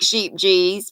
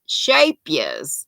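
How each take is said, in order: First: It is read as it looks, like 'sheep-gees'. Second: It is said like 'sha-pee-as'. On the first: The speaker calls it wrong. "Looks like Sheep G's" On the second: The speaker calls it right. "pronounced Shapias"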